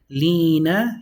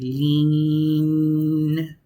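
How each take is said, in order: First: The word ends with a final vowel. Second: The word ends on a consonant, no vowel. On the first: The speaker calls it wrong. "you don't say lina" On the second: The speaker calls it right. "you say lean. You just put a sukun into it"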